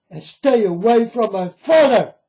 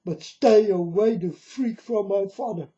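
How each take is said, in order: First: Higher, louder angry warning; angry shout. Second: Said in the usual way. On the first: Real, not acted. Warning deceivers off his father, loud and angry. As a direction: shout the last warning at them.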